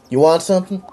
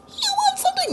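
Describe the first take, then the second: First: Husky voice. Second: You want something? squeaked far higher; squeaky high voice. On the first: Acted. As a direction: give it a husky rasp. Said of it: "That's a husky voice". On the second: Shown as a demonstration. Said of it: "No, I'm not doing that again".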